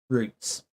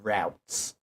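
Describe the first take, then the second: First: It is said with a British pronunciation. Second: It is said with an American pronunciation. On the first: The speaker calls it right. "That's better" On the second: The speaker calls it wrong. "this is America. I hate. Hang on, this is going to hurt my hurt my head to say it"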